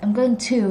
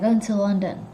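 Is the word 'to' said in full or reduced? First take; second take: full; reduced. First: The word 'to' is said in full. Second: The word 'to' is reduced and weak. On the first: The speaker calls it wrong. "never hear them say I'm going to to, like I'm going to, not like that" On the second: The speaker calls it right. "so now we know the reduction of to"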